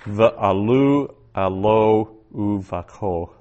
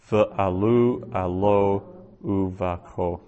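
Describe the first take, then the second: First: "Ve'alu alo uvako" very slow and louder, "Ve'alu" stressed; first careful reading of "Ve'alu alo uvako"; slow Hebrew reading. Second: "Ve'alu alo uvako" repeated slowly at normal level; teacher repeating "Ve'alu alo uvako". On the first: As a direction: read "Ve'alu alo uvako" slowly and clearly. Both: Shown as a demonstration. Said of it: "Second Samuel fifteen thirty".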